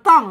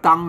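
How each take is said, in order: First: The word is said with a falling tone. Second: The word is said with a level mid tone. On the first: "เสียงโทแหละ" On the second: "เสียงสามัญ"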